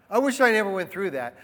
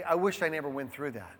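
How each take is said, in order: First: Said in the usual way. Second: Soft, fast wistful murmur; half-spoken regret under the breath; quiet musing. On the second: Pretend. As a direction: muse it quietly to yourself. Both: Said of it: "go back and say".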